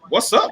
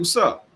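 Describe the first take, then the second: First: It sounds like a hostile, confrontational challenge. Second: It sounds like a friendly, casual greeting. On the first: The speaker seems to be picking a fight. "this mother, he was like, what's up? What you want?" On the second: The speaker is simply asking what is going on. "I'm asking like like what's going on"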